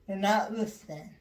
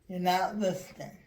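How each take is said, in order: No difference in how they are said.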